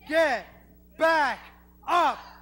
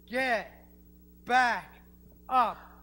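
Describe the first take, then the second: First: It is said much louder, shouted. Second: It is said at normal volume, quieter.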